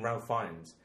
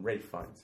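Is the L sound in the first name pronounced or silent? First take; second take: pronounced; silent. First: The first name is said with an L sound. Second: The first name rhymes with safe, no L. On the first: This is the common everyday form of the name. "in America, when you hear interviews, we're interviewing Ralph Fiennes" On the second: This is the upper-class form of the name. "if you're in the UK, you call him Rafe Fiennes"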